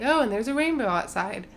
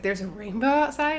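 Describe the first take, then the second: First: Offhand mock announcement; flippant. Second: Mildly astonished retold question; surprised question. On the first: Planner mentioning the rainbow to the wedding party, flippantly. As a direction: toss it out as a casual aside. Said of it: "he said it, like, flippantly". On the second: Bride reacting to the planner's rainbow news, surprised. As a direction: ask it as if just hearing the news. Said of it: "And Eleanor was like".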